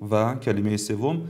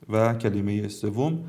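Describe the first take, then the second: No difference in how they are said.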